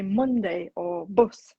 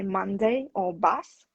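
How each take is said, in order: First: "Monday" and "bus" with short oo as in "put"; Yorkshire vowel. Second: Said in the usual way. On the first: Shown as a demonstration. Teacher shows how Yorkshire people talk, northern vowel in "Monday" and "bus". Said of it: "people in Yorkshire would say". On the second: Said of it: "in R P, you would say".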